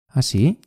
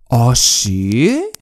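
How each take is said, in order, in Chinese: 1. 说得很轻，几乎没有强调。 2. 说得很重，语气很夸张。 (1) "轻的" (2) "夸张的"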